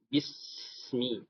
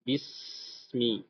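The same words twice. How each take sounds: First: The s sound flows on with continuous air. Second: The s sound flows on with continuous air.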